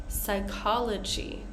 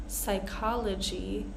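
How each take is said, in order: The two takes are said the same way.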